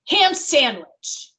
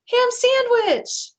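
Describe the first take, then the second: First: It is said forcefully, with an angry tone. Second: It is said with a happy, higher-pitched tone. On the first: The speaker is upset. "let's say that I'm angry, I might say ham sandwich, right? Like I'm mad. It's coming out with force" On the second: The speaker feels positive. "let's say I do it in a happy tone, ... my pitch is a little bit higher"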